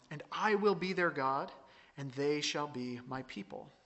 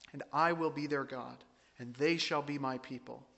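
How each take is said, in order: The two takes are said the same way.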